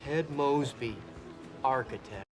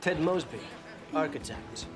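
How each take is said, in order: First: It is said in a flat, unimpressive way. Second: It is said in a confident, impressive way. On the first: The job sounds dull. The speaker calls it wrong. "you're always like" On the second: The job sounds attractive. The speaker calls it right. "Anything sounds impressive when it's said with the right attitude"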